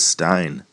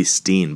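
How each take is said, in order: First: "Stein" with an eye vowel; preferred pronunciation. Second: "Steen" with a long ee; alternative pronunciation. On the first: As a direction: say "Stein" to rhyme with fine. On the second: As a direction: say "Steen" to rhyme with seen. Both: Shown as a demonstration. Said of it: "I'd like to read it as Stein".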